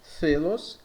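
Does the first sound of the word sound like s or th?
th. The first consonant is a th sound. "pensando ahora en la pronuncia del norte de España"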